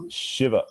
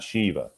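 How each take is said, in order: First: "Shiva" said SHIV-uh; "Shiva" modelled as SHIV-uh; short i. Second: "Shiva" said SHEE-vuh, long ee; "Shiva" the mistaken way, SHEE-vuh; wrong long i. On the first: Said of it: "It's Shiva". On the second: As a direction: demonstrate "Shiva" with a long first vowel. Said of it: "It's not Shiva". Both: Shown as a demonstration.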